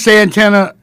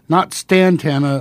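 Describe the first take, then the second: First: The name begins with a plain 's' sound. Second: The name begins with an 'st' sound. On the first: The speaker calls it right. "Santana, actually" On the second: The speaker calls it wrong. "not Stantana"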